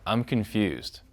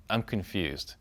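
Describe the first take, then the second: First: Said in the usual way. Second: Soft, puzzled "I'm confused". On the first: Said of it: "share what's on your mind". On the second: Shown as a demonstration. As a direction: say "I'm confused" softly, sounding lost. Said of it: "So you just say".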